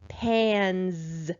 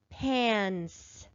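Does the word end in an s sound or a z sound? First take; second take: z; s. First: The final sound is a voiced z. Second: The final sound is an unvoiced s. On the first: The speaker calls it right. "let me try it with the voiced sound" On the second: The speaker calls it wrong. "Let's try it unvoiced first, making the s sound"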